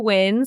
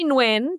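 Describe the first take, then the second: First: It sounds like the word 'win'. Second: It starts with a slight N sound. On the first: This is a common American rendering. "some people say Win" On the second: This is how the name's owner says it. "So I say Nguyen"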